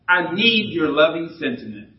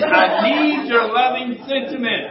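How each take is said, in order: First: It is said plainly, without special feeling. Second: It is said with strong, heartfelt feeling.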